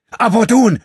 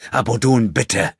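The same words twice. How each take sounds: First: Full-throated, very high yelled name; shout. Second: Raised, pressing appeal to a friend; urgent plea. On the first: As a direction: scream his name to stop the blow. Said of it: "schrie André". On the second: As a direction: beg him to stop. André pleads with his friend. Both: A narrator's reading.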